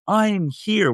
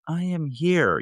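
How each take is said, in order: First: It is said loudly and boldly. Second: It is said quietly and timidly.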